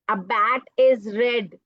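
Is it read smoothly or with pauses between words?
smoothly. It is read smoothly without pausing.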